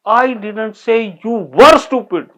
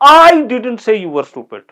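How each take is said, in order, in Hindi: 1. शब्द were पर ज़ोर है। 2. शब्द I पर ज़ोर है। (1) "यू आर स्टूपिड।" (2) "मैंने नहीं कहा, किसी और ने कहा होगा।"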